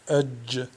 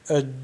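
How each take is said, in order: First: The final consonant is released with a bouncing click. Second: The final consonant is cut off with no release. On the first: The speaker calls it right. "où on fait le qalqalah, le claquement" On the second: The speaker calls it wrong. "si on bloque le jim, ça donne ed"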